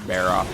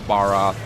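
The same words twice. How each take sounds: First: The first syllable sounds like 'bear'. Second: The first syllable sounds like 'bar'. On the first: "some people pronounce it as Bear" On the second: "Some people pronounce it as Bar"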